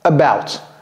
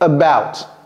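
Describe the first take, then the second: First: The first vowel is a weak uh sound. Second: The same.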